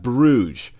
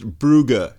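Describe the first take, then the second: First: The name is said with a non-German pronunciation. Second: The name is said with the German pronunciation. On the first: The speaker calls it wrong. "not Bruges" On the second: The speaker calls it right. "that word is pronounced Brugge"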